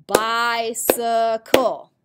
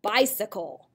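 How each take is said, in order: First: "Bicycle" slow and loud in three beats, bi-cy-cle; syllable by syllable. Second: Said in the usual way. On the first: Shown as a demonstration. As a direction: clap out each syllable of "Bicycle". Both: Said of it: "What about a three-syllable word?".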